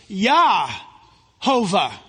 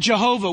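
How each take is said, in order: First: The name begins with a Y sound. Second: The name begins with a J sound. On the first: The speaker calls it right. "It's Yahovah" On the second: The speaker calls it wrong. "we should never say that. There is no J sound in Hebrew"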